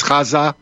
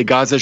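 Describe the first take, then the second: First: "Gaza" opened with a throaty kh, as Khaza; her pronunciation. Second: Said in the usual way. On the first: Shown as a demonstration. Host contrasting the guest's Gaza with ours, throaty kh pronunciation. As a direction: make the G of "Gaza" a scraped back-of-throat kh. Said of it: "she says Gaza". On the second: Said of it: "how we say Gaza".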